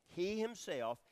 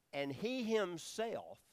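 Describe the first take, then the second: First: "he" lifted high and loud again; emphatic stress. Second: "he" punched high and loud, drawn out slow; emphatic stress. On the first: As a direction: hit "he" in "he himself". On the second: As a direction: lean hard on "he" in "he himself". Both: Shown as a demonstration. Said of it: "and it's emphatic".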